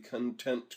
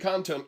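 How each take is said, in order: First: The stress is on the second syllable. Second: The stress is on the first syllable. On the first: A control that is satisfied. The speaker calls it wrong. "I put the emphasis on the wrong syllable there" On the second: A control that holds content. The speaker calls it right. "It's the content control can't be deleted"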